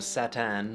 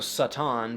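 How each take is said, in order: First: The first vowel is an a sound. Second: The first vowel is an open ah sound. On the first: "became a" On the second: "the sound ah"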